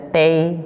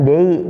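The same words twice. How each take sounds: First: "tei" with t and an ay glide; clear, held "tei"; example syllable. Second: "dei" with voiced d, as in day; "dei" as the wrong syllable; rejected example. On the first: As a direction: say "tei" like tay, drawn out. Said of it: "contohnya ada tei". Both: Shown as a demonstration.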